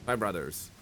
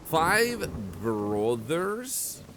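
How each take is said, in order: First: Said in the usual way. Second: Slow, drawn-out disbelieving question; incredulous. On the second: Real, not acted. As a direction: stretch it out in disbelief. Baffled at the five brothers.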